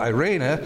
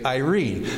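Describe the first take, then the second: First: The word ends with a vowel after the n. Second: The word ends on the n sound. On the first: This is the Greek pronunciation. "A long E in Greek is pronounced as an A. That's why we would say Irena there" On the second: This is the English pronunciation. "People say Irene"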